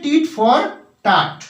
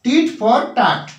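First: The vowel in 'tat' is like in 'father'. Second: The same.

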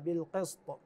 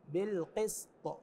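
First: The s sound is heavy and emphatic, like sad. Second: The s sound is light and plain, like sin. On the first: The speaker calls it wrong. "إذا قلنا بالصاد يعني راح تقرأ هكذا" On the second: The speaker calls it right. "أما بالسين فكون تقرأ بهذه الكيفية"

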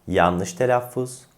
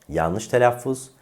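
The two takes are said the same way.

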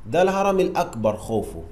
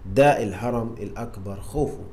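First: The phrase is spoken very fast. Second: The phrase is spoken at a normal pace.

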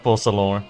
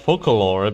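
First: The first part does not sound like 'focal'. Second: The first part sounds like the word 'focal'. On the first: "it is pronounced Focalor" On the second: "I usually usually pronounce it as Focalor because of the physics uh, physics concept, focal focal point"

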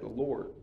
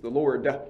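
First: The final D is swallowed and barely heard. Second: The final D is clearly and strongly pronounced. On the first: The speaker calls it wrong. "the southern dialect tends to swallow certain consonants" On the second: The speaker calls it right. "you need to emphasize the D"

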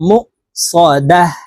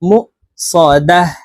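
Both takes have the same delivery.

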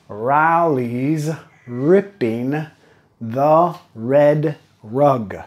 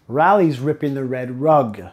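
First: The sentence is said at a slower pace. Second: The sentence is said at a faster pace.

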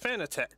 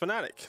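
First: It is pronounced unlike the word fanatic. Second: It is pronounced like the word fanatic. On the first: "the first way I heard it was Fanatec" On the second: "apparently it's supposed to be pronounced Fanatec. Like, I'm a fanatic"

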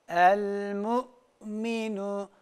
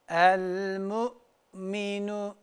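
Both takes have the same delivery.

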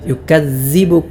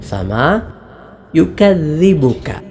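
First: The middle consonant is a z sound. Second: The middle consonant is a voiced th sound. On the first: The speaker calls it wrong. "സാൽ പോലെയും ഉച്ചരിക്കാറുണ്ട്" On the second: The speaker calls it right. "നാവിൻ്റെ തല മേലെ മുൻപല്ലിൻ്റെ താഴെയറ്റം"

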